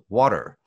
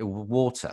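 First: It is said in an American accent. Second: It is said in a British accent. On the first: "that's the American way of saying it" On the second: "water was the British way of saying it"

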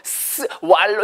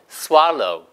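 First: The s is said as a separate full syllable. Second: The s is a light hiss blended into the word. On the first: The speaker calls it wrong. "너무 스왈로우 이러면 발음하기 힘드니까" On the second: The speaker calls it right. "치아를 살짝 갈면서 스왈로우"

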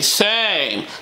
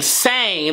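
First: The vowel is long, rounded, warm and dark. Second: The vowel is short, bright and spread. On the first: "they're saying same" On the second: "instead of saying same"

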